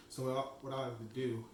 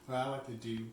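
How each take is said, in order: First: Talking through a mouthful; words round a bite of cookie; mouth full. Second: Said in the usual way. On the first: Real, not acted. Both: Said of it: "can't even speak".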